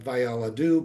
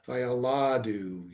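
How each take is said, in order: First: It is said in the ordinary, non-pausal form. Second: It is said in the pausal, clause-ending form. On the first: The speaker calls it wrong. "Not vayaladu" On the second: The speaker calls it right. "read that way because it's a, a verbal punctuation"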